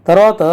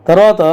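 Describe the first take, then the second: The two takes are said the same way.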